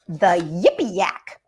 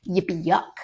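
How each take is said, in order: First: "Yak" said with the vowel of yak; "Yippee Yak", ending rhyming with back; wrong title read out. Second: "Yuck" said with the vowel of yuck; "Yippee Yuck", ending rhyming with duck; corrected title. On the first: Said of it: "Excuse me, not Yippee Yak". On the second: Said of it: "not Yippee Yak". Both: Shown as a demonstration.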